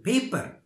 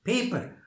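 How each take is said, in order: No difference in how they are said.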